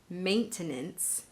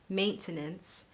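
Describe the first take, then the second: First: The word is said with three full syllables. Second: The word is said with three full syllables.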